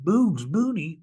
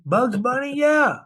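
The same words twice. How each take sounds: First: Slow, puzzled, falling, still working it out; puzzled slow repeat. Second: Higher and louder, "Bugs Bunny?" rising as it clicks; light up on "Bugs Bunny?", then a loud "Yeah"; sudden recognition. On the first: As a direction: say "Bugs Bunny?" slowly and flatly, as if not yet getting it. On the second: Sudden recognition in retold reply. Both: Retold or imitated.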